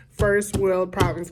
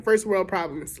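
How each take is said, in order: First: "first world problems" slow and deliberate; slow emphatic first world problems. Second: Said in the usual way. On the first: Shown as a demonstration.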